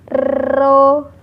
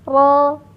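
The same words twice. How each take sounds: First: The r is trilled with many vibrations. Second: The r is trilled with only slight vibration. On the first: The speaker calls it wrong. "getarannya jangan terlalu banyak sehingga terdengar ro" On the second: The speaker calls it right. "getarannya cukup sedikit saja"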